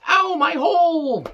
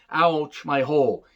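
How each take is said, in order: First: Very high, slow, strained mock wail of pain; mocking Nia Jax. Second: Said in the usual way. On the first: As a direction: ham up a wrestler's whiny cry of pain. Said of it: "Nia Jax again said".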